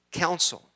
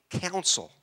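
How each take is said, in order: Both takes have the same delivery.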